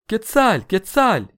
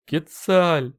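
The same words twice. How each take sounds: First: High, loud squealed cry; panicked screech. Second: High plaintive cry that sinks away; crestfallen. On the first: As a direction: screech the name out twice in alarm. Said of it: "верещал по всему Теночтитлану". (пронзительно верещит) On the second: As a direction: say the name with a sinking heart. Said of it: "произнёс упавшим голосом Талтенолли". (упавшим голосом, жалобно) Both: A narrator's reading.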